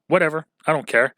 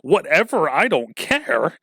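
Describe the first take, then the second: First: It sounds casual and indifferent. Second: It sounds angry and offended.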